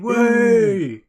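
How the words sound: The word is said loudly with excitement. "Sounded more excited on that"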